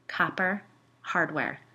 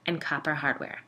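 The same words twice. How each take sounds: First: COPPER HARDWARE slowly, each word set apart; "Copper ... hardware", drawn out in awe; awed emphasis. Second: Said in the usual way. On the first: A narrator's reading. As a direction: savor "Copper hardware" with a pause between the words. Awed repeat of the detail.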